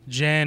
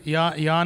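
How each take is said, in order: First: The name is said with American pronunciation. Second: The name is said with Polish pronunciation. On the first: The speaker calls it wrong. "Jan is the butchering of the American pronunciation" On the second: The speaker calls it right. "Jan is the Polish pronunciation"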